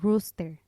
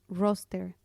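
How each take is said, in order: First: The first vowel sounds like 'oo'. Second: The first vowel sounds like 'oh'. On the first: It means a male chicken. The speaker calls it wrong. "yo la pronunciaba como rooster, que es gallo" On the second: It means a list or shift schedule. The speaker calls it right. "Otra palabra que me costó mucho trabajo al inicio fue roster"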